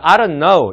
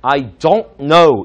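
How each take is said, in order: First: 'Don't' is light, with a reduced vowel. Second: 'Don't' is strong, with a full vowel. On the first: "그냥 가볍게 치는 발음이 있어요" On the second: "강하게 I don't know 이렇게까지 강하게"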